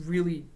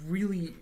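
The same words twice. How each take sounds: The two takes are said the same way.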